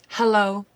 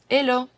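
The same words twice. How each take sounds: First: The word starts with a clear H sound. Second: The word starts without any H sound.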